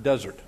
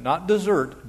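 First: "desert" stressed on the first syllable, falling; "desert" like the dry wilderness; desert wasteland. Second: "dessert" said as the sweet, stress on -sert; "Not dessert" with the stress at the end; wrong word dessert. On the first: Pastor corrects himself: "desert", stressed first syllable. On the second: Pastor warns the flock: "dessert", stress on -sert. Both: Shown as a demonstration. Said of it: "Not dessert, desert".

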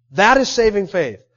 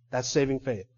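First: Emphatic declaration. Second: Quiet restatement. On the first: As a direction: proclaim it firmly to the congregation. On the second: Preacher quietly restating saving faith to listeners, low and soft. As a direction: drop well down in pitch and volume. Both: Real, not acted.

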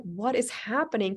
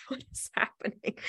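First: Voiced bewilderment, lightly exclaimed; bewildered question. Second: Hushed, voiceless aside with a laugh before it; bewildered whisper. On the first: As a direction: ask it aloud in disbelief. Retells her bewilderment at the scene. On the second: Retold or imitated. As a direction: whisper it to yourself in disbelief. Bewildered aside from the back seat.

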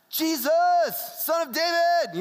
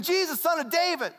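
First: Mock Pentecostal. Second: Fast, high, urgent call; acted frantic cry. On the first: Showing how the blind man didn't say it, mock Pentecostal. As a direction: parody a Pentecostal worship cry, stretching the words. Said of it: "it's not that Pentecostal thing". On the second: Blind man going nuts while people rebuke him, frantic cry. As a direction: blurt it out high and quick like someone going nuts. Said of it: "he's going nuts". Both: Shown as a demonstration.

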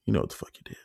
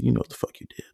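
First: Softer, lower repeat of the threat. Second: Whispered threat; menacing whisper. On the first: To the roommate, repeating the threat: low and soft. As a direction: let it drop low and cold. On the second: To the roommate, staring him down: menacing whisper. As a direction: hiss it through the dark, unvoiced. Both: Retold or imitated. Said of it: "That's all I said to him".

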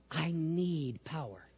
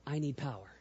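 First: Soft and slow, barely above a whisper; slow soft murmur. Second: Breathy whispered plea. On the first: Showing the congregation the prayer, slow and soft. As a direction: let it sink in, slow and hushed. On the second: Leading the congregation, he whispers the words. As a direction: whisper it to yourself, unvoiced. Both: Shown as a demonstration. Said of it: "Do just like this and say".

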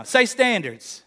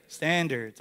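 First: Slow, drawn-out Say standards; urging repeat. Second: Said in the usual way. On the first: Real, not acted. Preacher urging the congregation to repeat, slow and drawn out. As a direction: push the crowd to say standards back, slowly. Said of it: "Oh, come on now".

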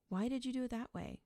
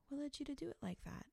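First: Medium volume, punched words that sound accusatory; accusatory emphasis. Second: Soft, higher-pitched, quick curious question; soft unassuming curiosity, voice lifted and quiet; gentle, unassuming, curious. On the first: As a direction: put them on the defensive with an emphatic question. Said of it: "said in a medium volume voice with emphasis on certain words". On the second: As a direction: ask lightly and gently, with no judgment. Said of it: "And a gentle, unassuming, curious voice". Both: Shown as a demonstration.

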